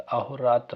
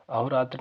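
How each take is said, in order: First: "अहोरात्र" with a full a-ho before raatra; correct pronunciation. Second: "अहोरात्र" run together quickly; wrong pronunciation. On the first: Teacher corrects the word for students, careful pronunciation. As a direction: give "अहोरात्र" its separate a, ho, raatra. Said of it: "अहोरात्र होता है". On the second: Teacher tells students what it is not, mistaken pronunciation. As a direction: say "अहोरात्र" as the mistaken form, first syllables squeezed. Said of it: "अहोरात्र नहीं होता". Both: Shown as a demonstration.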